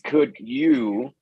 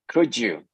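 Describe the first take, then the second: First: The d and y are kept separate and distinct. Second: The d and y blend into a single 'ju' sound. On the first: This sounds emphatic and unusual in everyday speech. "You could also say could you, but that would be not every day" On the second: This is the common everyday way to say it. "She pronounces ju"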